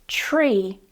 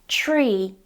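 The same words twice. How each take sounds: Both takes have the same delivery.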